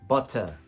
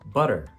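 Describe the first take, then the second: First: The middle t is a clear t. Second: The middle t is a soft tap.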